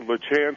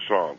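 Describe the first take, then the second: First: The name is said the usual Missouri way. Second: The name is said the French way.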